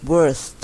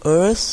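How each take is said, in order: First: "worst" with a clear final st, falling; worst demo. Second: "worse" a bit higher and louder, rising; worse demo. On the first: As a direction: stress the t at the end of "worst". (ออกเสียง worst ลงท้าย st ชัดๆ) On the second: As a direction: model "worse" clearly, rising end. (ออกเสียง worse ชัดๆ เสียงขึ้น) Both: Shown as a demonstration. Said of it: "ออกเสียง worse กับ worst".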